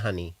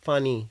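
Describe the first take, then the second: First: The word begins with an h sound. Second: The word begins with an f-like sound. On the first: "people in Noakhali, they say honey" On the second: "Chittagonians, I think we say funny"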